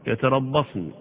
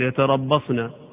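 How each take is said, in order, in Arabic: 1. تنتهي الكلمة بحرف النون الساكن. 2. تنتهي الكلمة بحركة الفتحة القصيرة. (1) "لو وقفت عليها ... بالسكون" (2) "هي مفتوحة"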